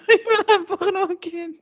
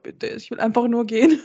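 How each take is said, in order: First: High, laughing through the words. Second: Said in the usual way. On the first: Retold or imitated. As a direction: laugh while pleading to leave. Retelling her own embarrassed thoughts.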